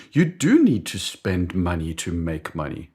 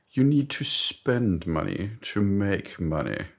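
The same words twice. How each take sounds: First: Quicker, emphatic echo leaning on DO; convinced agreement. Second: Slow mock-British maxim; British boss. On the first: Acted. Colleague agreeing with boss's maxim, eager mock conviction. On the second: British boss persuading doubtful colleague, slow pompous mock-British. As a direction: deliver it deliberately in a British accent. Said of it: "I d-, don't know why he's British".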